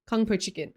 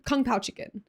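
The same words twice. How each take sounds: First: "kung po chicken" with "po" as in "poe"; "po" said with a plain o vowel in "kung po chicken"; mispronounced dish name. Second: "kung pao chicken" with "pao" rhyming with "cow"; "pao" said like "pow" in "kung pao chicken"; corrected dish name. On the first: First take, corrected right after. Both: Real, not acted.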